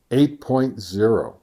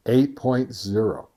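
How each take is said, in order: Both takes have the same delivery.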